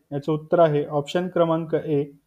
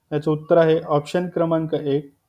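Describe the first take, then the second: No difference in how they are said.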